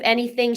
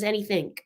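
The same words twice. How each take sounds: First: The word ends plainly without a k sound. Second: The word ends with an added k sound.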